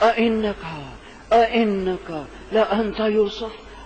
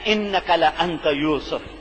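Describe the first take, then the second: First: It is said haltingly, with fear and amazement. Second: It is said evenly, without strong emotion.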